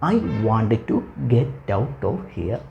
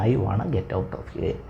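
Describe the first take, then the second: First: Both words 'want to' are said in full. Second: 'Want to' is run together into 'wanna'. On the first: "I വാണ്ട് ടു get out of ഹിയറിന് പകരം" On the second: "ഞാനിങ്ങനെ സംസാരിക്കണം"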